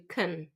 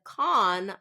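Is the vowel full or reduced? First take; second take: reduced; full. First: The vowel is reduced and weak. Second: The vowel is full and clear. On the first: "I reduced it to con" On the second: "Instead of con"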